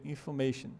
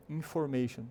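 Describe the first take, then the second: First: INFORMATION as "in-fuh-MAY-shun"; schwa for O. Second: INFORMATION with a full O, "in-FOR-mation"; spelling pronunciation. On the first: Teacher showing the real sound, schwa replacing O. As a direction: reduce the O of INFORMATION to a weak "uh". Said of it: "O som dela tem um chua". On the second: Teacher showing how learners would say it, full O. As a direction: sound the written O in INFORMATION. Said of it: "ela não é pronunciada assim". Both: Shown as a demonstration.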